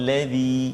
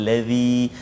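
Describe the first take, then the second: No difference in how they are said.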